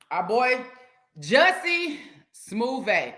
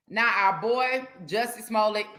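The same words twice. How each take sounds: First: "Jussie Smoove" stretched very slow; mocking nickname. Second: Said in the usual way. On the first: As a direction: savour "Smoove" like a smooth nickname. Mock nickname, drawn out.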